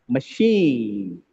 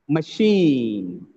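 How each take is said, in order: Both takes have the same delivery.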